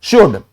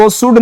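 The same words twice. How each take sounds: First: "Should" with a clear sh, "shud"; correct should pronunciation. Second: "should" with a plain s, "sud"; mispronounced should. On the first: Teacher gives students the proper word, "Should" as "shud". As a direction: start "Should" on sh, short vowel, silent l. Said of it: "क्या बोलेंगे?". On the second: Teacher shows students what not to say, "should" as "sud". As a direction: swap the sh of "should" for s. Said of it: "इसको should नहीं बोलेंगे". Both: Shown as a demonstration.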